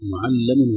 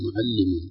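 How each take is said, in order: First: The doubled L is followed by an a vowel. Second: The doubled L is followed by an i vowel. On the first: The speaker calls it right. "انتبه لفتحة اللام مع الشدة" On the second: The speaker calls it wrong. "وليس معلم"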